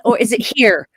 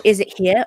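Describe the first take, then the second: First: "here" said with a full final r; rhotic "here". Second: "here" said without its final r, like "hee-uh"; r-less "here". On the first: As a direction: sound the r clearly at the end of "here". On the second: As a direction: drop the r at the end of "here". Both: Shown as a demonstration. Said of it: "Make up your mind".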